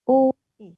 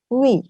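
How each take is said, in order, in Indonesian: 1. Dua vokal diucapkan sebagai dua bunyi yang terpisah. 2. Dua vokal menyatu dengan cepat menjadi satu suku kata. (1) "U dan i kita baca u-i" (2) "Baca cepat menjadi wi"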